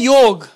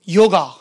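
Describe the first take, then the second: First: The word ends on the consonant g. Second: The word ends with an added a vowel. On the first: The speaker calls it right. "अब शब्द है योग" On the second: The speaker calls it wrong. "ये तुम लोग extra डंडा काहे झोंक देते हो?"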